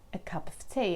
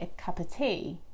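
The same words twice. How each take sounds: First: The f sound in 'of' is pronounced. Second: The f sound in 'of' is dropped. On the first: "you say a cup of tea" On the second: "some people might actually not pronounce the F"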